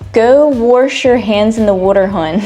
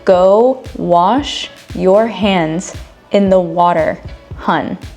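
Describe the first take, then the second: First: It is said in a Baltimore accent. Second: It is said in a standard accent.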